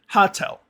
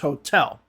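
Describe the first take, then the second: First: The stress is on the first syllable. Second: The stress is on the last syllable. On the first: The speaker calls it wrong. "most Russian speakers will say hotel" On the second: The speaker calls it right. "but it's hotel. So the stress is at the end"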